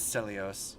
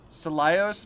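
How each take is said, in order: First: "Celios" as seh-lee-ohs; corrected pronunciation. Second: "Celios" as suh-lie-ohs; alternative pronunciation. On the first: Streamer correcting the dub, "Celios" as seh-lee-ohs. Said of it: "No, that's Celios". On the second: Streamer trying another reading of the name, "Celios" as suh-lie-ohs. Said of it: "Could be another way to pronounce that". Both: Shown as a demonstration.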